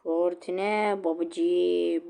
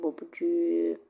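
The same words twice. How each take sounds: First: Chanted, slow, stretched catchphrase; chanted, drag every syllable out; drawn-out chant. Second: Breathy whispered repeat; whispered echo. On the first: Catchphrase then whispered echo. (chanted, uzatarak okunan tezahürat) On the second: (fısıltıyla yankı) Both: Acted.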